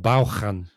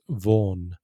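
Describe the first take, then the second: First: It is read letter by letter with a ch sound. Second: It is said as the short English name Vaughan. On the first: The speaker calls it wrong. "a Spanish speaker looking at that, pronouncing it phonetically, says Vaughan or Vaughan even. With a ch" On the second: The speaker calls it right. "the English pronunciation is completely different"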